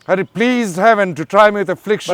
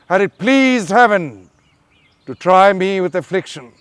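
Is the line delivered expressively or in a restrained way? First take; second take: restrained; expressively. First: It is delivered small and contained. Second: It is delivered big and expressively.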